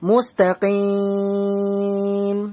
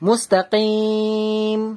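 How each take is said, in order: First: The vowel before the final m is held three counts. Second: The vowel before the final m is held two counts. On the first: "তিন আলিফ টান দিলাম" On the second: "দু আলিফ টান দিলাম"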